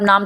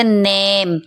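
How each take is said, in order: First: नाम with a long "aa"; wrong pronunciation. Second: नेम with a long "ey"; drawn-out vowel. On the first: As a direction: say नाम as "naam". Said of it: "नाम तो नहीं पढ़ेंगे". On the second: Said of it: "इसको आप थोड़ा खींच कर पढ़ेंगे". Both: Shown as a demonstration.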